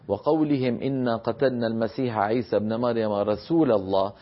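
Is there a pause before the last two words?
no. The final phrase runs on without a pause. The final phrase is the claimants' own mocking words. "إذا أحببنا أن نصل"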